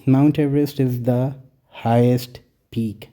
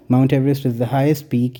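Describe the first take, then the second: First: Very slow, word by word; slow example reading. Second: Said in the usual way. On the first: Shown as a demonstration. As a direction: read the example out slowly. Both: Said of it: "example देखें".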